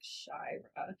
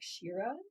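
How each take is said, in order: First: The first syllable sounds like 'shy'. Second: The first syllable sounds like 'she'. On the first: "S Y H is shy, as in like Shira" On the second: "it might be an E E pronunciation, maybe like Shira"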